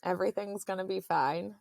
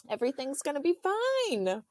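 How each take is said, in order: First: Said in the usual way. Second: High-pitched mock reassurance; imitating reassuring husband. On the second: Husband promising pregnant wife all is fine, high mock reassurance.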